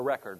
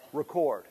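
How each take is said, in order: First: Record said as "REK-erd"; first-syllable stress. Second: Record said as "ri-KORD"; second-syllable stress. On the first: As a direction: stress the start of Record, short "e" vowel. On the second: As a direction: stress the end of Record, long "or" vowel. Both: Shown as a demonstration. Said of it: "is it Record or Record".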